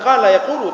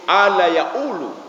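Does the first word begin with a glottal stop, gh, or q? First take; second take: q; glottal stop. First: The first word begins with a deep q sound. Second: The first word begins with a glottal stop. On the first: This is the standard classical form. "itu bukan qala yaqulu" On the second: This is how Egyptians say it. "tapi ala yaqulu. Jadi qa itu berubah menjadi hamzah"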